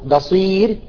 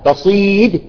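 First: The final consonant is a clear r. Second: The final consonant sounds close to d. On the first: The speaker calls it right. "الأصل بصير" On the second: The speaker calls it wrong. "بعضهم يريد أن يرققها فيأتي بدال"

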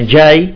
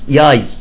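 First: The word begins with a j sound. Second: The word begins with a y sound. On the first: "مثلا جاي يعني قادم" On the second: "يقول ياي"

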